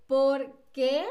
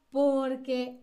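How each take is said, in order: First: Loud "por qué" in two words, "qué" lifted; questioning por qué. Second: One word, stressed "por", falling "que"; answering porque. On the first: Teacher drills the question for students, rising weighted "qué". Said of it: "Es la pregunta". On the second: Teacher drills the answer for students, unweighted "que" in "porque". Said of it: "es la respuesta". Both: Shown as a demonstration.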